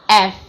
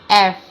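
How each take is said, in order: Both takes have the same delivery.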